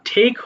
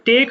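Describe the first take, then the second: First: The first consonant is a heavy, aspirated t. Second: The first consonant is a plain, unaspirated t. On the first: The speaker calls it right. "ঠেক হয়ে যাবে" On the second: The speaker calls it wrong. "তাহলে কিন্তু টেক হবে না"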